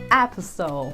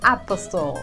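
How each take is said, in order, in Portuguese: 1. O som do T é silencioso. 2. O som do T é pronunciado. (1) "diga apostle" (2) "não diga apostle"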